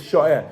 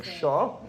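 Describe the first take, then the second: First: "sha'eh" in two syllables, the ayin starting the second; full theoretical form. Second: "shah" in one open syllable; ayin left silent. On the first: Teacher showing the theoretical form, both syllables sounded. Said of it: "In theory, it's sha'eh". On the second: Teacher demonstrating the easier everyday form, ayin left silent. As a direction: say "shah" without sounding the ayin. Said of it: "Without pronouncing the ayin". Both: Shown as a demonstration.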